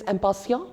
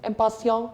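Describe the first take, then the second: First: The word is pronounced with French sounds. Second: The word is pronounced with French sounds.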